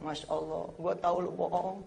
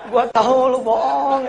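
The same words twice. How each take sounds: First: Mother speaking. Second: Louder and higher, laughing through it; mother laughs as she catches her son's fib. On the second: Mother laughs at her son's fib, loud and high. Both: Retold or imitated. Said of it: "dia ngomong".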